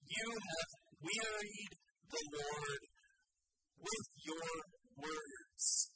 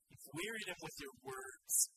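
First: Slow, deliberate reading of the verse; slow scripture quote. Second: Low restated verse. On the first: Preacher reading the verse to his congregation, slow and weighty. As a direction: lay out each word of the verse slowly. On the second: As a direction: drop low to drive the words home. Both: Shown as a demonstration. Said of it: "it was explicitly stated".

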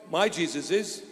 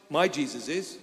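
Both takes have the same delivery.

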